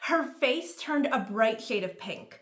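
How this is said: It is read in a put-on character voice.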